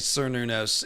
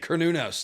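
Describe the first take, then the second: First: The name begins with a soft s sound. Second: The name begins with a hard k sound. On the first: The speaker calls it wrong. "a lot of people say Cernunnos" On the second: The speaker calls it right. "to be accurate. Like a kernel of corn"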